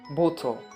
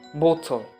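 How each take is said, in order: First: The middle consonant is a crisp, clear T. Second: The same.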